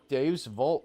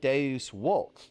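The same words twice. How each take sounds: First: The second word begins with a V sound. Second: The second word begins with a W sound. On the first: The speaker calls it wrong. "I'm sorry" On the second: The speaker calls it right. "The letter V actually had a W sound. So this is pronounced"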